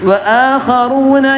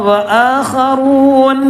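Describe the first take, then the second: Both takes have the same delivery.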